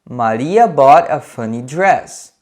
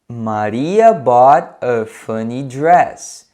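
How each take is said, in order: First: It is said at a faster pace. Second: It is said at a slower pace.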